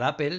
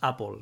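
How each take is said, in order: First: It is said with a Spanish pronunciation. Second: It is said with an American pronunciation.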